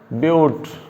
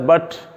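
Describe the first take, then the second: First: The vowel sounds like the one in 'cute'. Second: The vowel sounds like the one in 'cut'. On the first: The speaker calls it right. "it's pronounced as but" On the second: The speaker calls it wrong. "It is not pronounced as but"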